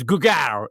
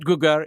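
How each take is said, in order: First: "Gugar" with the stress on the second half, gu-GAR; "Gugar" said the proper way, last syllable stressed. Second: "Gugar" with the stress on the first half, GU-gar; "Gugar" said the wrong way, first syllable stressed. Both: Retold or imitated. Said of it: "The emphasis is on the second, uh, half".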